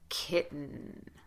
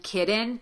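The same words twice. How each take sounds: First: The T is stopped and the N is held long. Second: The middle consonant is pronounced as a D. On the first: The speaker calls it right. "Stop the T, shorten the vowel, sustain the N" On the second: The speaker calls it wrong. "You will hear certain dialects of American English use a D in this situation"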